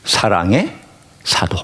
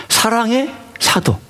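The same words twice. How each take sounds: First: Said in the usual way. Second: Slow emphasis. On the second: Shown as a demonstration. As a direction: savour 사랑의 사도 slowly.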